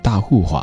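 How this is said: It is said in a Fujian accent.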